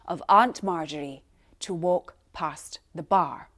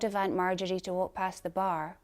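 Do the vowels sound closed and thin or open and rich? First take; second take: open; closed. First: The jaw drops open; vowels sound fuller, richer. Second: The jaw stays fairly closed; vowels sound thinner. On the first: The speaker calls it right. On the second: The speaker calls it wrong.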